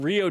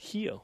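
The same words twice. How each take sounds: First: The word begins with an R sound. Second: The word begins with an H sound. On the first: The speaker calls it wrong. "it's not Rio de Janeiro" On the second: The speaker calls it right. "It's Rio"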